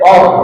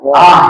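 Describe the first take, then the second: First: The vowel is thick and rounded. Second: The vowel is thin and open. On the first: The speaker calls it wrong. "Jangan sampai or" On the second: The speaker calls it right. "hamzahnya benar-benar ditipisin"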